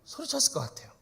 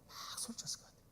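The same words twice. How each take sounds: First: Said in the usual way. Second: 소리쳤을 breathed in a soft voiceless whisper. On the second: Shown as a demonstration. 소리쳤을 whispered to the congregation after the shouting. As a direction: drop to a whisper.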